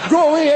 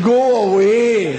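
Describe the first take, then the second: First: "Go away!" higher and louder; "Go away!" with mock force; go away with exclamation. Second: Flat, slow "go away"; "go away" said mild and slow, no punch. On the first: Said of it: "exclamation mark". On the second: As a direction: limp "go away" with a laugh. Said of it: "It certainly isn't". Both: Shown as a demonstration.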